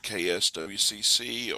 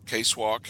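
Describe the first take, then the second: First: Each letter is said separately. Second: It is said as two short words.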